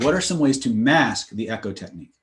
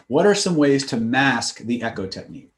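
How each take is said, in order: First: The full line asked as a real question; spoken as a question. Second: Said in the usual way. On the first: Shown as a demonstration. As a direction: ask it, don't state it. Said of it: "I could say it in the form of a question". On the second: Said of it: "notice what I did there".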